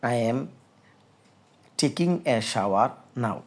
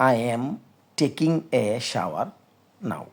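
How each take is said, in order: No difference in how they are said.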